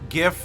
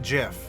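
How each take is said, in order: First: The word begins with a hard G sound. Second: The word begins with a soft G sound. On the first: The speaker calls it right. "hard G" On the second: The speaker calls it wrong.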